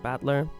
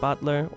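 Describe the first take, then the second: First: The first vowel sounds like the one in battle. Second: The first vowel sounds like the one in butter. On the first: "or like Battler" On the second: "say like Butler"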